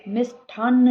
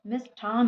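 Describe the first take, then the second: First: मिष्ठान्न with doubled n at the end; doubled final n. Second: Said in the usual way. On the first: Shown as a demonstration. Teacher rejecting a spelling, doubled final n. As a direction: hold the closing न्न of मिष्ठान्न. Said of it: "नहीं होता है". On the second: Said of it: "होता है".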